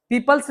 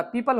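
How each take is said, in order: First: "पीपल्स" with an added s, marked as wrong; "पीपल्स" said the wrong way, ending in s; wrong plural. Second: "पीपल" said with no s, the correct form; "पीपल" ending cleanly on l. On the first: ("पीपल्स" गलत, आखिर में s के साथ) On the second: ("पीपल" सही, बिना s के) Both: Shown as a demonstration. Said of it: "पीपल्स नहीं होता".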